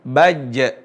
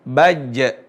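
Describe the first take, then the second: First: The second consonant is a voiced 'j' sound. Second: The same.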